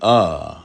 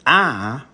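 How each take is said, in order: First: The syllable is said on a low pitch. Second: The syllable is said on a high pitch. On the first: "that is very relaxed" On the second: "we all agree that that is a high pitch"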